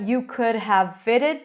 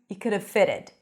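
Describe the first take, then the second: First: The V sound in have is clearly pronounced. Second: The V sound in have is dropped. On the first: "reduce that you could have fitted" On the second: "I don't actually pronounce the V of the have"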